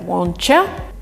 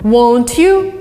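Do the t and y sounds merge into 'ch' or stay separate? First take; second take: merge; separate. First: The t and y merge into a ch sound. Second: The t and y sounds stay separate. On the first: "replaced by won'tcha" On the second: "won't you would be replaced"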